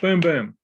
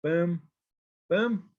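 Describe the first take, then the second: First: "Boom, boom" as two loud, punched beats; two equal stresses. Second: "boom, boom" with a long pause between the beats; separate equal beats. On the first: Teacher sounding out a spondee, "Boom, boom" in two quick strong beats. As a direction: hit both words of "Boom, boom" hard and close together. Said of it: "is two accented syllables". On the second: Teacher marking a spondee, "boom, boom" as two spaced-out beats. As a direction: space out "boom, boom", each its own measured stroke. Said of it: "So spondy then". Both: Shown as a demonstration.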